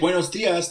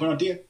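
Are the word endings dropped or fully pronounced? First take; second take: full; dropped. First: The word endings are fully pronounced. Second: The word endings are cut off. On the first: "Don't say buenos dias" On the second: "they chop everything off at the end. They go"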